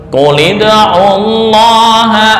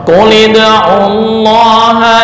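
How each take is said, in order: No difference in how they are said.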